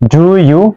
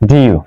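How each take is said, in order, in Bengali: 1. এটি দুটি পূর্ণ সিলেবলে বলা হয়। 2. এটি মিশে গিয়ে একটি ছোট সিলেবল হয়ে যায়। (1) "লিখো ডু ইউ" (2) "আলাদা আমি উচ্চারণ করি"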